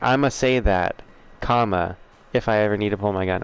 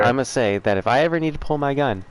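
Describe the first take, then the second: First: There is a break after "say that." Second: It runs on without a break.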